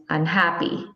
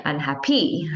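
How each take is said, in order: First: "unhappy" with the normal middle stress, un-HAP-py. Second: "unhappy" wrongly stressed on the last syllable, unhap-PEE. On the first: Teacher correcting the wrong version, stress after the prefix. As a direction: settle the weight on HAP in "unhappy". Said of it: "It's unhappy". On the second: Teacher showing another wrong version, stress at the end. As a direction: throw the weight onto the final PY of "unhappy". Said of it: "or you wouldn't say unhappy". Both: Shown as a demonstration.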